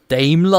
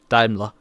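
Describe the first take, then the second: First: It is pronounced the English way. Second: It is pronounced the German way. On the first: "if I pronounce it more in the English way" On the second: "that I pronounce again in German"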